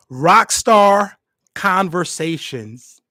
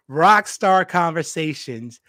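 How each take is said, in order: First: Slow booming announcer reveal, drawn out. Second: Said in the usual way. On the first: Pretend. Host announcing his podcast name in a big announcer voice. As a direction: unveil the podcast name like a movie trailer. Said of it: "I don't know why I talk like that".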